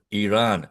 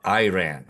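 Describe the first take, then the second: First: "Iran" said ee-RAHN, starting with a long E; first syllable of "Iran" like the letter E; correct pronunciation of Iran. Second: "Iran" said eye-RAN, starting with a long I; first syllable of "Iran" like the word eye; mispronunciation of Iran. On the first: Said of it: "it is pronounced as". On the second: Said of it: "not Iran, okay? It's like with an E". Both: Shown as a demonstration.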